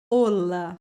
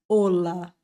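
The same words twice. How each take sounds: No difference in how they are said.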